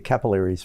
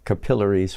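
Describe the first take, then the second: First: It is said with an American pronunciation. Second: It is said with an Australian pronunciation. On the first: "we say capillaries" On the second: "In Australian"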